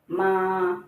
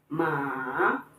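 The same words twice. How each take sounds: First: The pitch stays level and flat. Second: The pitch dips down then rises. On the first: "pronounce ma with the first tone" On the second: "the falling and rising tone"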